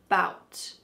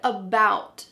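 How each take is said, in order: First: The word starts directly with the b sound. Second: The word starts with its full first vowel. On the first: "we cut off the first letter A and just say bout" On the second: "Our next word, about"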